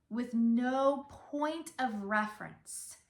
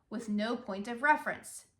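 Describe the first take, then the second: First: Slow, deliberate no point of reference; shifted emphasis. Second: Said in the usual way. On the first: Shown as a demonstration. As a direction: give NO and POINT each their own weight. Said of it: "you have the emphasis on different words". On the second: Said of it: "So instead of speaking".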